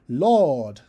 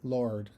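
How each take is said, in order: First: The vowel is an open ah with no r. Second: The vowel is colored by an r sound. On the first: The speaker calls it right. "we sing Lord" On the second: The speaker calls it wrong. "and not Lord"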